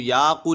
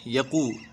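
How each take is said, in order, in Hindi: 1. पहला स्वर खींचकर लंबा बोलें। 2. पहला स्वर छोटा रखें। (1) "याकू नहीं पढ़ना है" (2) "खींचेंगे नहीं बिल्कुल भी"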